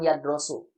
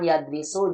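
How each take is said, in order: First: The second syllable has the vowel o. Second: The second syllable has the vowel i. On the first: "jangan yadrosu" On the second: "jangan yadrisu"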